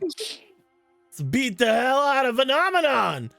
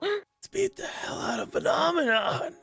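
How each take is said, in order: First: It is a loud, fast yell. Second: It is a quiet, slow yell.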